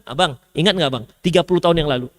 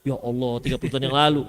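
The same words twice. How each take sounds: First: Nagging wife. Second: Much lower, softer, weary disbelief; lightly voiced exasperated husband; exasperated groan. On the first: Retold or imitated. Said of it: "ketika marah masih disebutkan". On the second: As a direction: sigh it out like a worn-down husband. Husband groans at old grievance.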